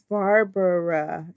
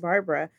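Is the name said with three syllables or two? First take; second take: three; two. First: The name is said with three full syllables. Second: The name is said fast with two syllables. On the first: The speaker calls it right. "It's three syllables" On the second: The speaker calls it wrong. "everybody calls me Barbara"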